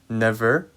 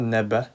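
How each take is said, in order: First: The middle consonant is a v sound. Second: The middle consonant is a b sound. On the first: The speaker calls it right. "you need to be careful with the v sound" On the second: The speaker calls it wrong. "it's not neba"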